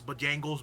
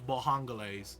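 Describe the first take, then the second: First: It is said with the usual 'Bo-jang' sounds. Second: It is said with 'Ba-hang', an h-like middle sound.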